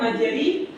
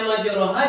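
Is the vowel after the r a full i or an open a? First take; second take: full i; open a. First: The vowel after r is a full i. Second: The vowel after r is an open a. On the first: "Kalau tiga per tiga dia bukan miring lagi tapi merubah bunyi fathah ke bunyi kas" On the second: "awalnya majraha"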